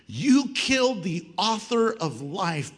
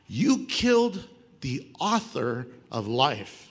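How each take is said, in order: First: The phrase is read at a quicker pace. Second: The phrase is read at a slower pace.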